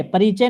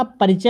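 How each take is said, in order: First: "परिचय" with long ee, pa-ree-chay; wrong form pareechay. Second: "परिचय" with short i, pa-ri-chay; corrected form parichay. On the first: Teacher rejecting the word, "परिचय" as pa-ree-chay. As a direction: stretch the i in "परिचय". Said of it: "परिचय नहीं होता". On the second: Teacher correcting students, "परिचय" as short pa-ri-chay. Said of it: "परिचय होता है". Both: Shown as a demonstration.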